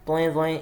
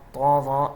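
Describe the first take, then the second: First: The letter names have a drawn 'oe' vowel. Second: The letter names have a plain 'o' vowel. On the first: This is the Urdu way of saying the letters. The speaker calls it wrong. "ये नहीं पढ़ना" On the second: This is the Arabic way of saying the letters. The speaker calls it right. "इस तरह से हमें पढ़ना है"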